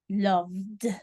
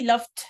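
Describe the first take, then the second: First: The word ends with a d sound. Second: The word ends with a t sound. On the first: The speaker calls it right. "This time is d" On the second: The speaker calls it wrong. "So I don't say loved, uh-uh, not t"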